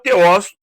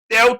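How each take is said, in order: First: The word ends with an s sound. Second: The word ends on a vowel, with no s. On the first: This is the original way of saying it. "a pronúncia correta é Theos" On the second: This is the usual Portuguese way of saying it. "Nós falamos Theo no português"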